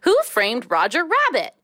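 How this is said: It is said as an exclamation.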